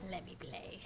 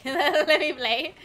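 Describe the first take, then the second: First: Soft whisper; hushed plea. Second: Loud, higher, stretched-out whine after laughing; drawn-out plea. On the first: Streamer acting reluctant to talk on voice chat, whispered. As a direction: whisper it like a private little plea. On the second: Streamer acting out wanting to just play, loud drawn-out plea. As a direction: drag the words out loudly. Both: Acted. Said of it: "I feel like I'm like".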